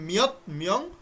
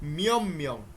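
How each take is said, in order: First: The first word ends with a t sound. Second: The first word ends with an m sound. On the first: The speaker calls it wrong. "এটা কিন্তু আর মিয়ত মিয়ং হবে না" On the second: The speaker calls it right. "কি হবে? মিয়ম মিয়ং।"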